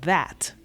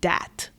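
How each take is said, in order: First: The word begins with a th sound. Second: The word begins with a d sound.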